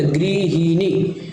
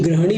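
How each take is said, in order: First: गृहिणी slowly as "gri-hi-ni"; correct form गृहिणी. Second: ग्रहणी said with "gra"; wrong form ग्रहणी. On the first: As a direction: stretch each syllable of गृहिणी. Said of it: "ग्रहणी भी नहीं होता". (गृहिणी को धीरे, "गृ-हि-णी" बोलना) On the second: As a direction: open ग्रहणी on gra, not gri. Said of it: "भी नहीं होता". (ग्रहणी में "ग्र" की ध्वनि) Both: Shown as a demonstration.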